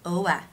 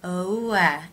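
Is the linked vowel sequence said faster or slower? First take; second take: faster; slower. First: The linked vowels are said at a quicker pace. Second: The linked vowels are said at a slower pace.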